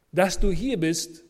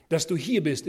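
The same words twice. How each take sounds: First: Slow, louder, "du" stressed with a falling tune; slow it and hit "du" in "Dass du hier bist". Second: "hier" pushed louder with a falling tune; stress on hier. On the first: Preacher pressing each student personally. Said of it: "hat seinen Sinn". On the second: Preacher telling students their being here is meant. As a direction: lean on "hier" in "Dass du hier bist". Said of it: "ist nicht ein Zufall". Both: Real, not acted.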